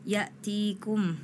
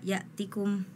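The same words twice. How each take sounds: First: The vowel after the t is held long. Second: The vowel after the t is cut short. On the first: The speaker calls it right. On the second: The speaker calls it wrong.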